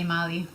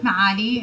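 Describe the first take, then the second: First: The vowels run together with no throaty sound. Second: A throaty ain sound comes before the second vowel. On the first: "people that can't pronounce the Ain just say Mali" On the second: "In Arabic, Ma'ali"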